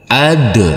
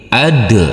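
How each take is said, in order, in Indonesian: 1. Huruf akhirnya dipantulkan dengan gema. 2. Huruf akhirnya dipantulkan dengan gema.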